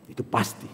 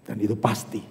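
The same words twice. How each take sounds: First: "Itu pasti" breathed in a whisper; whispered assurance. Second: Soft, low "pasti" said steadily; "Dan itu pasti" said low and calm; quiet assurance. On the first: Pastor repeating the promise to the congregation, in a whisper. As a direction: whisper "pasti" like a secret truth. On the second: Pastor assuring the congregation, quiet and firm. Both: Acted.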